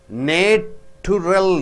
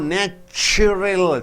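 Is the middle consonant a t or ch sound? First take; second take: t; ch. First: The middle consonant is a plain t sound. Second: The middle consonant is a ch sound. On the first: The speaker calls it wrong. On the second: The speaker calls it right.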